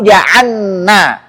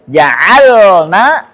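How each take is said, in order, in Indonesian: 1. Bunyi l menyatu ke dalam n yang ganda. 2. Bunyi l terdengar jelas sebelum n.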